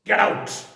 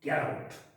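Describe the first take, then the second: First: It is said sharply and forcefully. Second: It is said in a plain, flat way. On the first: "बोलने में खड़ाक" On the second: "लिखने में आएगा"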